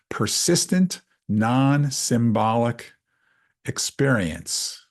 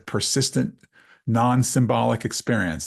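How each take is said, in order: First: It is said slowly. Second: It is said at normal speed.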